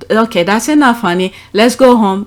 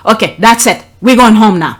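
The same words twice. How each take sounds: First: Put-on gentle to kids. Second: Stern, louder on going home now; firm parent tone. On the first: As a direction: ask the child kindly to leave. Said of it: "there's different way you speak to kids". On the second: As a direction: put your foot down with the kid. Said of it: "but my tone of voice change". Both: Shown as a demonstration.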